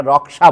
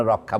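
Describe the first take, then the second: First: রক্ষা said louder the Hindi way, clear ksh cluster; রক্ষা with Hindi sounds, stressed; Hindi pronunciation. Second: রক্ষা said softer the Bengali way, rokkha; রক্ষা relaxed, Bengali sounds; Bengali pronunciation. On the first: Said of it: "ওরা রক্ষা বলে". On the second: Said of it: "আমরা রক্ষা বলি". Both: Shown as a demonstration.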